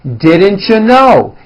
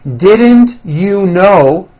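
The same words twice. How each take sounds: First: The words are reduced and run together. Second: Each word is said fully and separately.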